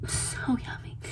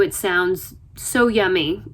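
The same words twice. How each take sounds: First: Breathy whispered echo of so yummy; swooning whisper. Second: Said in the usual way. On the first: Retold or imitated. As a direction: whisper it like a delicious secret. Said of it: "whispered repeat of so yummy". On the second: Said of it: "first take before the whisper".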